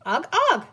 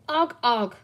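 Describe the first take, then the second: First: Put-on high, loud, chirpy baby grunts; bright pollywog. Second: Offhand sheriff. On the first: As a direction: report back brightly, pitch jumping up. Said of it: "brightly to Penny". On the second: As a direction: grunt it without looking up. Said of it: "said the sheriff, not looking up". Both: A narrator's reading.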